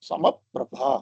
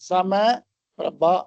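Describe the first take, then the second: First: It is one joined word with a doubled p. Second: It is split into two parts with a break. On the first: The speaker calls it right. "அந்த உபத்மானியா சொல்ற மாதிரி சொல்றது சமப்பிரபா" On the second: The speaker calls it wrong. "தனித்தனியா சொல்லாம"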